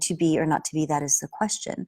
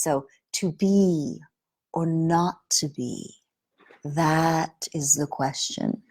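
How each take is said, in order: First: It is said plainly, without guiding the listener. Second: It is said in a voice that leads the listener.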